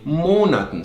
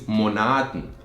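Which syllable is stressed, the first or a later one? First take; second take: first; later. First: The stress falls on the first syllable. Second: The stress falls on the second syllable. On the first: The speaker calls it right. "the weight is actually on the O at first and not on the A" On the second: The speaker calls it wrong. "the wrong way to say it is monaten"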